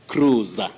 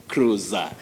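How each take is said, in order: Both takes have the same delivery.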